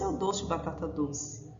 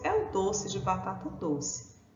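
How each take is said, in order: First: It is spoken quickly, with the words run together. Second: It is spoken at a normal, unhurried pace.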